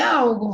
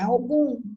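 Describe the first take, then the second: First: The stress is on the first syllable. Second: The stress is on the last syllable. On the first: The speaker calls it wrong. "Não é algum" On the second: The speaker calls it right. "é algum ... Algum é uma oxítona"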